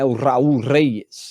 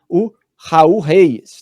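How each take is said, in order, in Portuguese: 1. O nome é dito com o som de R espanhol. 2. O nome é dito com pronúncia portuguesa. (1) "com aquele R é, da língua espanhola" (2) "como a gente diria na pronúncia aportuguesada"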